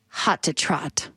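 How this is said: It is said in a weird put-on voice.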